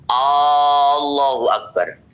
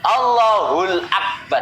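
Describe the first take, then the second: First: The first vowel of Allah is drawn out long. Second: The first vowel of Allah is short. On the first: It turns the phrase into a question about God's greatness. The speaker calls it wrong. "Itu jadinya hamzahnya panjang" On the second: It is the accepted form of the phrase. The speaker calls it right. "itu boleh"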